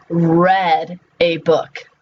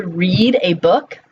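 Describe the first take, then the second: First: Slow, drawn-out "read" with a short e, like red; past-tense pronunciation. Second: "read" with a long ee, like reed; present-tense pronunciation. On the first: Teacher showing students the past tense, "read" said as red. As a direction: say "read" to rhyme with bed, slowly. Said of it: "they are pronounced differently". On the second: Teacher showing students the present tense, "read" said as reed. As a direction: say "read" to rhyme with need. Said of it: "they're pronounced differently". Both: Shown as a demonstration.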